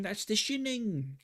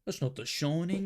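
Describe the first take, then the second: First: High, slow British caricature, "Shining" as "Shinning"; mock British accent. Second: British caricature, pitched up, "Shining" as "Shoning"; mock the British with a rounded "Shoning"; mock British accent. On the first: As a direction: correct it in silly British, short-i "Shinning". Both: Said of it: "British people be like".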